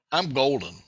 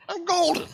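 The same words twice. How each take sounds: First: Said in the usual way. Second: "I'm golden" jumped way high; high sing-song boast. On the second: Real, not acted. Repeated boast, pitched up.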